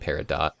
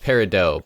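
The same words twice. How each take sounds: First: The final T sound is pronounced. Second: The final T sound is silent. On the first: This is a character's name, a play on the word. "when you pronounce the T" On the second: This is the usual name of the gemstone. "it's Peridot, but in Steven Universe they made her not"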